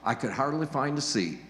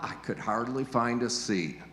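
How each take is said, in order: First: The voice sounds delighted and amazed. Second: The voice sounds annoyed and put out. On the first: The crowd is a welcome sign of success. "wow, ... isn't that incredible?" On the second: The crowd made the visit unpleasant. "the very same words but with a different intonation ... Oh, that was uncomfortable"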